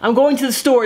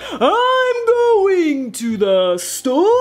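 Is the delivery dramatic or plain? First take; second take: plain; dramatic. First: It is said in a plain, natural way. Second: It is said dramatically, every word overenunciated. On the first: "instead of saying" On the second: "enunciate on like all your words ... you almost sound fake ... very uh, dramatic"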